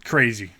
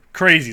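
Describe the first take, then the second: First: Said in the usual way. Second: CRAZY said louder and higher, falling; disbelieving louder repeat. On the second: Real, not acted. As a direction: hit the second Crazy harder.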